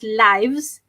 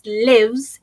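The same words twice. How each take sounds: First: The vowel is long, as in 'life'. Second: The vowel is short, as in 'live'. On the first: It is the plural of life. "then hidup hidup lah, banyak kehidupan lah" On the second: It means someone resides somewhere. "So itu adalah tinggal"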